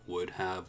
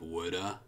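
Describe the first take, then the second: First: Both words are said fully and separately. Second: The words blend into one reduced form.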